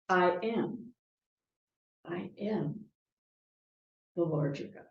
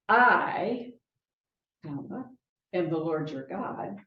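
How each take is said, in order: First: There is a pause after 'am'. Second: There is a pause after 'I'.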